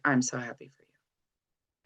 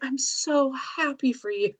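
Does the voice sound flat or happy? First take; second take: flat; happy. First: It is said in a flat, unhappy tone. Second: It is said in a warm, happy tone. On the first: The speaker is not really happy for the listener. The speaker calls it wrong. "this flat tone that doesn't sound happy" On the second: The speaker is truly happy for the listener. The speaker calls it right. "that's very different than like"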